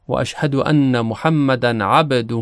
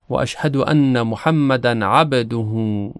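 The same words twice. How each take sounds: First: عبده ending with a light kasra-like echo on ب; qalqala on ba. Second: عبده with the سکون ب bouncing slightly towards kasra, slow; qalqala on ba. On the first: Teacher repeating the tashahhud line with the ب bounce. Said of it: "کمی متمایل به کسره". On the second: Teacher showing the bounce in عبده from the tashahhud, slow. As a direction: let the ب in عبده echo a little kasra. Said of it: "با در کلمهٔ عبد". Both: Shown as a demonstration.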